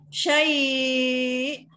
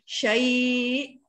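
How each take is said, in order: First: The vowel before the final glottal stop is held moderately long. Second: The vowel before the final glottal stop is held briefly. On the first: "kalau empat" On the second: "dua harakat"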